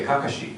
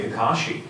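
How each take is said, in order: First: "Kakashi" stressed on the first syllable; preferred pronunciation. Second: "Kakashi" stressed on the middle syllable; show's usual pronunciation. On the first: Actor showing his own preference, "Kakashi" with first-syllable stress. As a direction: hit the first KA of "Kakashi", the rest light. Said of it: "I wanna say Kakashi". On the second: Actor showing how the show says it, "Kakashi" with middle stress. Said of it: "we say Kakashi". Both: Shown as a demonstration.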